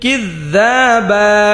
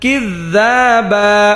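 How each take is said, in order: Both takes have the same delivery.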